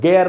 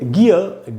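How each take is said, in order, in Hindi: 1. पहला स्वर 'ay' जैसा बोला जाता है। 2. पहला स्वर 'ee' जैसा बोला जाता है। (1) "गेयर नहीं बोलना है" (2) "तो दोस्तों इसको पढ़ेंगे गियर"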